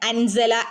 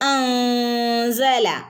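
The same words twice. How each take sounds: First: The n is fully pronounced with the tongue. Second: The n is hidden as a nasal hum. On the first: The speaker calls it wrong. "നമ്മൾ അവിടെ അൻസല എന്ന് ഓതില്ല" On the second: The speaker calls it right. "നാവ് മുകളിൽ തട്ടാതെ ചുണ്ടിന്റെയും പല്ലിന്റെയും ഇടയിൽ ഒരു ക്യാപ്പ് വിട്ടിട്ട്"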